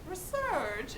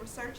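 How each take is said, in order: First: The word is said in an exaggerated put-on accent. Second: The word is said in a plain, ordinary way. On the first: "this obnoxious a- accent. Like instead of saying research, he goes research" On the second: "instead of saying research"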